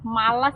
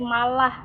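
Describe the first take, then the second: First: The word ends with an 's' sound. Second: The word ends with an 'h' sound.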